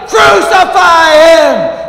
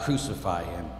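First: High, drawn-out full shout; roaring, long-held demand; crowd cry. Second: Low, soft, sorrowful echo of a cry; subdued and grave, falling away; hushed crowd cry. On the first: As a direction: scream it with the mob. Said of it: "we're in the crowd and we cry". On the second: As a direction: let the cry sink almost to nothing. Same cry repeated in hush. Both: Acted.

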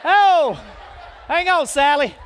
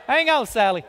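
First: Laughing through the words, louder. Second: Said in the usual way. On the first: Real, not acted. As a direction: crack up while calling to her. Laughing at the volunteer mix-up.

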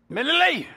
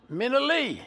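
First: "Minnie Lee" hollered much higher and louder; louder call. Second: A loud, high call of "Minnie Lee". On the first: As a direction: holler the name up high, losing patience. Pee Wee calling her again, louder. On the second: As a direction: call her name up and loud from the yard. Pee Wee calling mama outside. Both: Retold or imitated.

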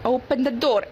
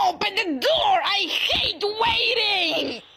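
First: Said in the usual way. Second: Shrimpo. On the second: Acted. Angry shrimp stuck at a door, impatient mock-raging shout. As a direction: rage impatiently, dragging out the last words. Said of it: "play as this little angry shrimp".

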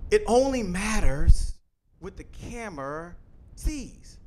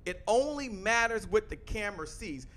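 First: "It only matters" louder and slow, "what the camera sees" dropping and slow; emphatic repeat. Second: Said in the usual way. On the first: Shown as a demonstration. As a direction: hammer home the point slowly. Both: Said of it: "I told you that three times".

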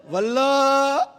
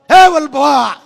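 First: Wife calling her husband's name. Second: Loud, sharp call of હે Vallabha with the final આ stretched; a wife yelling her husband's name in a temper; wife's angry call. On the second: (ગુસ્સામાં પતિને મોટેથી બોલાવતી પત્ની) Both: Retold or imitated. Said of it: "પત્ની કેટલી મૂડમાં છે".

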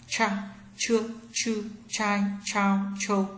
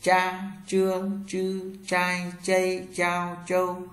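First: "Cha, trương, chư, trai, chao, châu" with curled tongue and a puff of air; heavy breath-released ch on "Cha, trương, chư, trai, chao, châu", high level tone; aspirated retroflex ch. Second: "Cha, trương, chư, trai, chay, chao, châu" with curled tongue, no air puff; light zh on "Cha, trương, chư, trai, chay, chao, châu", held level; unaspirated retroflex zh. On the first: Teacher drills ch for learners, "Cha, trương, chư, trai, chao, châu" aspirated. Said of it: "C H cong lưỡi bật hơi trở nặng".

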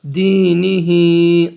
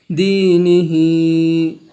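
First: দিনিহি again drawn out slowly; slow recitation repeat. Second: দিনিহি drawn long, vowels stretched; slow Quranic recitation. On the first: Students hear দিনিহি recited slowly again. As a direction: repeat it, long vowels held. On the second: Teacher models দিনিহি in slow recitation. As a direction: chant দিনিহি slowly. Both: Shown as a demonstration. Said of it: "এক আলিফ টানিয়ে পড়তে হবে".

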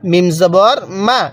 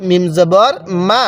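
The two takes are said the same way.

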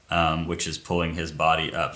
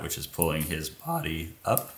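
First: Said in the usual way. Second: Voice crack. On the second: Real, not acted. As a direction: voice cracks on body up. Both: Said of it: "it's a nice voice crack".

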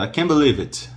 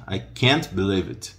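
First: "can't" said as open "can", higher; "can't" opened up, no final stop. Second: "can't" choked off on the T; "can't" closed at the end; choked final T. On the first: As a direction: open the vowel wide, drop the T of "can't". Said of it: "o can é bem aberto". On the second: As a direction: stop "can't" short before believe. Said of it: "dá aquela enforcada no final". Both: Shown as a demonstration.

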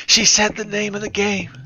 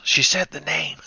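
First: Higher, gleeful emphasis on said; excited repeat. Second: Said in the usual way. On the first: Real, not acted. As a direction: punch "said" with glee.

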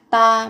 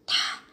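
First: "ta" with a hard t and no puff of air; unaspirated t. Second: "tha" with an airy, aspirated t; light, breath-like t. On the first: Teacher shows learners the sound to avoid, unaspirated "ta". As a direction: say "ta" without any breath after the t. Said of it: "phát âm rất là nhẹ, giống như âm thở. Không phải là ta". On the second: Teacher shows learners the correct sound, lightly aspirated "tha". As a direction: let a soft puff of breath follow the t in "tha". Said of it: "giống như âm thở". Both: Shown as a demonstration.

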